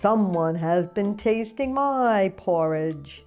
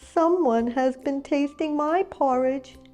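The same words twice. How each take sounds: First: It is said in a great big voice. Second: It is said in a wee little voice. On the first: "said Papa Bear in his great big voice" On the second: "cried Baby Bear in his wee little voice"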